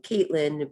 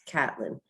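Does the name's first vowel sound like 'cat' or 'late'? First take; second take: late; cat. First: The first vowel sounds like in 'late'. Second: The first vowel sounds like in 'cat'. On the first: This is how others often say the name. The speaker calls it wrong. "a lot of people like to call me Caitlin" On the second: This is how the name is really said. The speaker calls it right. "but my name is Catlin"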